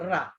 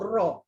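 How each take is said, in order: First: The r is light, with an open vowel. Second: The r is heavy, with a rounded vowel. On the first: The speaker calls it wrong. "tak boleh sebut" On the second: The speaker calls it right. "kena sebut"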